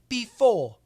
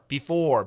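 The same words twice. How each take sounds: First: The final R is dropped and not heard. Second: The final R is clearly and strongly pronounced. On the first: "In the U K, ... they have what we call a non-rhotic R. So it's really basically you cannot hear the R" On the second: "But in American English, we can we do hear the R"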